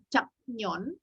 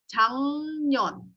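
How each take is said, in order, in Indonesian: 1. Suku kata pertama berakhir dengan bunyi k. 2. Suku kata pertama berakhir dengan bunyi ng. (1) "Tulisannya adalah 작년" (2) "Tapi cara bacanya adalah 작년"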